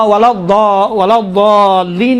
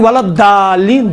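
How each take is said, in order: First: ضالین slowly, heavy Dad and stretched aa; dal-like true Dad. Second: ضالین said as daalleen, with a thin d; plain dal. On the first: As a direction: deepen the ض of ضالین into a thick, dal-like sound. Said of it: "دال جیسا ہے". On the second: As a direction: use an ordinary light d for the ض in ضالین. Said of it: "ولا ضالین دال ہے نا". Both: Shown as a demonstration.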